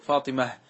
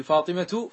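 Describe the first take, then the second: First: فاطمة ends on h, fatimah; pause with ha. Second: Said in the usual way. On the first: Shown as a demonstration. Teacher showing pause on ta marbuta, fatimah. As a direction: stop on فاطمة with final h. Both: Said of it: "تأنيث الاسم ها جعل".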